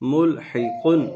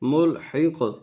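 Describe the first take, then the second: First: The word ends with a final n sound. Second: The word stops without the final n sound. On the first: The reading continues on without stopping. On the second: The reader stops at this word.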